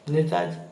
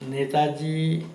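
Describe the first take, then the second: First: Said in the usual way. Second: Netaji drawn out slowly, each syllable weighed; the teacher's slow, deliberate Netaji; slow stressed. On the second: Shown as a demonstration. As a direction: lay out Netaji slowly for the class. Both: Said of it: "बताइए".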